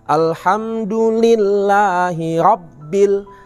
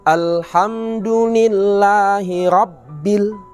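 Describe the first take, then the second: No difference in how they are said.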